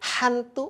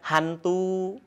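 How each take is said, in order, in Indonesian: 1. Bunyi h-nya dipaksakan dan berlebihan. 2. Bunyi h-nya lembut dan biasa. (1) "tidak ya" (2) "biasa kan?"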